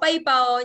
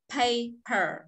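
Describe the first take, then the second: First: The p is said without a puff of air. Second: The p is said with a puff of air. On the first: The speaker calls it wrong. "không đọc paper nhá" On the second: The speaker calls it right. "nó ra hơi"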